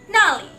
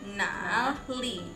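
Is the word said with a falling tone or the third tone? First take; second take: falling; third tone. First: It is said with a falling fourth tone. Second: It is said with the third tone. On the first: It means there. "pakai nada yang keempat, jadi nada turun" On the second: It asks where. "itu nada yang ketiga"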